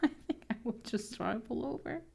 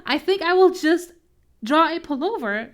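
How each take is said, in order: First: Soft muttered repeat of the line. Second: Louder, higher announcement; bright announcement. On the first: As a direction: quietly say it to yourself. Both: Real, not acted.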